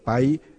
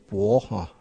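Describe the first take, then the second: First: The word is pronounced as bái. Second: The word is pronounced as bó. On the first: "这个白" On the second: "这个古文说要念成薄哈"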